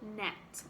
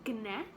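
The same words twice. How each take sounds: First: The starting g sound is silent. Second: The starting g sound is pronounced. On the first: The speaker calls it right. "the word gnat has a silent g" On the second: The speaker calls it wrong. "we don't say gnat"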